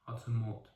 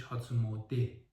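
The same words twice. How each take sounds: First: "مود" clipped to mod, with no final e; misprinted pronunciation. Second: "موده" said mode, with a final e; "هاتسون موده" with the e sounded at the end; correct pronunciation. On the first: Reviewer reads the misprinted name aloud, misprinted pronunciation. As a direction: read "هاتسون مود" as printed, ending on mod. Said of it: "درستش هاتسون موده هستش". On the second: Reviewer gives the correct name, correct pronunciation. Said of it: "درستش". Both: Shown as a demonstration.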